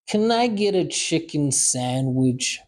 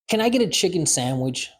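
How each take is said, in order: First: It is said slowly and deliberately. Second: It is said at a normal conversational speed. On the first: "Second time, slow" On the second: "First time, normal speed"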